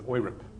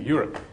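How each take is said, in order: First: It is pronounced the German way. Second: It is pronounced the English way. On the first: "Just like in Germany, you pronounce it as" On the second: "as opposed to"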